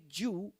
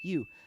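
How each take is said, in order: First: The word begins with a j sound. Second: The word begins with a y sound. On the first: The speaker calls it wrong. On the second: The speaker calls it right. "Say you"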